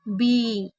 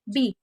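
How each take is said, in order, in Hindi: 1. स्वर लंबा और खिंचा हुआ है। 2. स्वर छोटा और झटके से बोला गया है। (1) "बड़ी ई की मात्रा को हमेशा धीरे से बोला जाता है" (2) "ऐसे नहीं बोल सकते"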